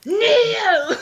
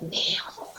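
First: High, loud commanding Loki; dark lord. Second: Menacing whispered Kneel; whispered command. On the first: Shown as a demonstration. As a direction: command them to kneel. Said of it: "I could say it again". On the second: Retold or imitated. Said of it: "I'm like".

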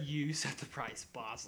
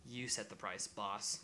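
First: "You set the price, boss" said slowly, each word weighted; repeating his creepy reply to the listener, slowly and pointedly; slow, deliberate quote. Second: Said in the usual way. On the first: Retold or imitated. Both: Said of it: "He literally said".

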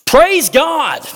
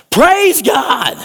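First: High, loud shout of praise; a jubilant shout of praise, high and loud. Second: High, loud shout of praise; a leper's jubilant high shout. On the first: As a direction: cry it out to God. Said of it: "came back to Jesus shouting". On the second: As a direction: throw it up to heaven. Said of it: "He shouted". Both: Acted.

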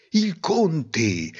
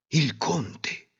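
First: Said in the usual way. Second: Softer, held-back first mention; hushed dramatic reveal. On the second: A narrator's reading.

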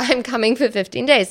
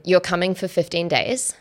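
First: Higher, with "days" falling at the end; confirming statement. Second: "days" lifted at the end as a question; questioning tune. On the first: She admits her plan to him, confirming fall on "days". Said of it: "Okay, well, yeah". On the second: He guesses her plan by message, questioning rise on "days". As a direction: ask it, letting "days" rise. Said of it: "Question mark". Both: Retold or imitated.

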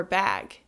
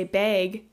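First: "bag" with a short A, as in "cat"; short A pronunciation. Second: "bag" with a long A, like "bayg"; long A pronunciation. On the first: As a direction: say "bag" to rhyme with "tag" in standard American. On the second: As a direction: say "bag" to rhyme with "vague". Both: Shown as a demonstration. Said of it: "the short A's instead of the long A's".

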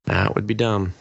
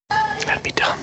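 First: Said in the usual way. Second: Mock-secret whispered repeat; whispered aside. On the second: Repeating a verdict on movie writing, in a whispered aside. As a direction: whisper it under the breath.

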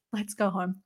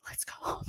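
First: Said in the usual way. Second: Hushed, voiceless whisper; whispered suggestion. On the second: Retold or imitated. Friends after an hour at the show, whispered suggestion. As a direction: whisper it as a retold aside. Retold wish to slip away.

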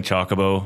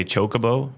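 First: Chocobo with first syllable like "chock"; short O in Chocobo. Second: Chocobo with first syllable like "choke"; long O in Chocobo. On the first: Guest recalls growing up, Chocobo with a short O. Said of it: "I grew up saying". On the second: Guest gives what others say, Chocobo with a long O. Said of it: "A lot of people will say". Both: Shown as a demonstration.

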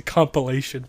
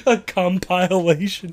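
First: Compilation said COM-puh-LAY-shun; "compilation" with a short, unstressed second syllable; correct pronunciation. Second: Compilation said slowly as com-PILE-ation; mocking mispronunciation. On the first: Shown as a demonstration. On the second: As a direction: tease with a drawn-out "compilation", long i like "compile". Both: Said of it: "It's also the wrong way".

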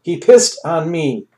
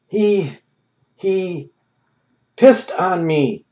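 First: Stunned repeat, slow; amazed. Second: Higher, slow and stunned; stammering in disbelief; amazed. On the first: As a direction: still can't believe it. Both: A narrator's reading. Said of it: "Ham stated in amazement".

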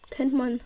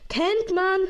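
First: Said in the usual way. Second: Kennt man shouted high and loud; loud exclamation. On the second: Real, not acted. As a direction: punch it out as a cheer. Repeats phrase, second louder.

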